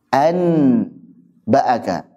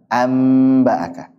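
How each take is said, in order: First: The n is pronounced clearly before the b. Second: The n turns into a clear m sound. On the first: The speaker calls it wrong. "An dengan izhar berat" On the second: The speaker calls it right. "Paling ringan mana?"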